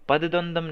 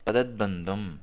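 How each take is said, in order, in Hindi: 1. 'dva' से पहले वाले अक्षर पर कोई अतिरिक्त जोर नहीं है। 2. 'dva' से पहले वाले अक्षर पर अतिरिक्त जोर है। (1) "नहीं" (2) "द पे थोड़ा सा जोर दो"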